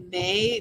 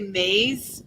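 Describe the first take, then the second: First: The final S is silent. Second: The final S is sounded like a Z. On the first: The speaker calls it right. "It's probably May" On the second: The speaker calls it wrong. "I want to say maze. I know that's not going to be right"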